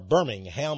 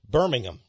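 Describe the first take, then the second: First: The name is said with a Texas accent. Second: The name is said the British way.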